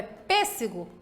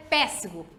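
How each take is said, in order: First: "pêssego" with a closed first e, not é; pronúncia fechada. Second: "pêssego" with a wide open first e, as "péssego"; som aberto errado. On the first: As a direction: correct take: keep the ê of "pêssego" closed. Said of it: "Então é pêssego". (pêssego com e fechado) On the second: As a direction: mispronounce pêssego with é instead of ê. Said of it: "Assim seria aberto". (pêssego com e aberto, péssego) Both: Shown as a demonstration.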